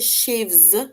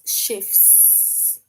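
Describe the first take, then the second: First: It is said with a V sound before S. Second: It is said with an F sound before S. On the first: The speaker calls it wrong. "we don't say chefs with a V" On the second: The speaker calls it right. "is chefs"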